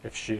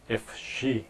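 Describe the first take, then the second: First: The words are run together and 'if' is barely heard. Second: Each word is pronounced clearly and separately. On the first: The speaker calls it right. "if가 거의 안 들리고요" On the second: The speaker calls it wrong. "이렇게 하지 않고"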